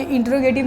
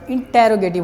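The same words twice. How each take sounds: First: इंट्रोगेटिव said with no vowel after ट, as in-tro-ge-tiv; the common wrong way, इंट्रोगेटिव run together with the ट्र cluster; wrong pronunciation. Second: इंटेरोगेटिव with a clear ए after ट, as in-te-ro-ge-tiv; correct pronunciation. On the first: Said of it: "कुछ लोग इसको इंट्रोगेटिव बोलते हैं". (इंट्रोगेटिव का गलत उच्चारण, ट्र जोड़कर) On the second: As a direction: spell out इंटेरोगेटिव, te and ro kept apart. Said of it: "ये इंट्रोगेटिव नहीं होता बेटा". (इंटेरोगेटिव का सही उच्चारण, टे और रो अलग) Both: Shown as a demonstration.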